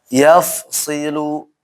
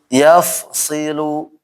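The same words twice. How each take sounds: No difference in how they are said.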